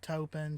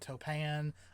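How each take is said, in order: First: The second syllable has an 'i' vowel. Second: The second syllable has an 'a' vowel. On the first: The speaker calls it right. "I like Topin better" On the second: The speaker calls it wrong. "I think Topan kind of sounds funny"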